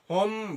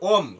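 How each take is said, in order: First: The word begins with an h sound. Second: The word begins with a vowel, without h. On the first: "আবার এটাকে হোম বললেও হবে।" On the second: "ওম যদি ব্রিটিশদেরকে follow করেন তাহলে ওম।"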